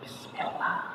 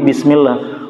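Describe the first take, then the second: First: It is said very softly. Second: It is said at normal loudness.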